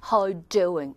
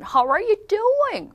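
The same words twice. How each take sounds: First: Restrained, low-key British greeting; understated British "How you doing"; British accent. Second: Hammed-up, high American "How are you doing"; over-the-top American accent. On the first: Teacher shows less showy British greeting, restrained British accent. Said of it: "영국 사람들이 이런 게 좀 덜해요". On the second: Teacher mocks excitable Americans, over-the-top American accent. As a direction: make a big drawn-out American fuss. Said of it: "뭐 난리 났죠?". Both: Shown as a demonstration.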